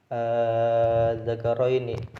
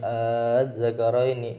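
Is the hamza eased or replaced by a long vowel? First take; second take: long vowel; eased. First: The second hamza becomes a long drawn vowel. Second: The second hamza is softened and eased. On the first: "boleh dibaca ibdal" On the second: "boleh dibaca tasyil"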